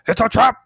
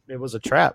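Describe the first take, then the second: First: It is said as an Admiral Ackbar impression. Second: It is said in his normal voice.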